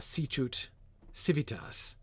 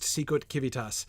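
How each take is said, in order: First: It uses the church Latin sounds. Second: It uses the classical Latin sounds. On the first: The speaker calls it right. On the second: The speaker calls it wrong.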